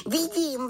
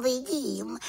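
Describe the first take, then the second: First: High little witch voice, falling at the end; the little witch answering, tune going down. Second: High little witch voice, rising at the end; the little witch repeating it, tune going up. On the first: (vysoký hlas malé čarodějnice, klesavě) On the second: (vysoký hlas malé čarodějnice, stoupavě) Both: A narrator's reading. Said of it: "řekla malá čarodějnice".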